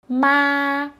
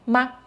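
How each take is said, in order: First: The pitch stays high and level. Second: The syllable is short and light, without set pitch. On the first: It means mom. "Ma means mom" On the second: It marks a question. "Ma is a question particle"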